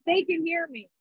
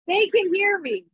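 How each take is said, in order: First: Said in the usual way. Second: Shouting over rain. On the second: Real, not acted. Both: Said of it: "but I'm shouting for you guys".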